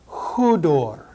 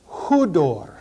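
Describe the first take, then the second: Both takes have the same delivery.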